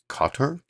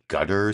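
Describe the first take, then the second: First: It sounds like the name Kotter. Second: It sounds like the English word gutter. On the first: This is how people from the country say it. "kind of sounds like Qatar, Qatar, almost like Welcome Back Kotter" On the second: This is how many people commonly say it. "A lot of people say like Gutter"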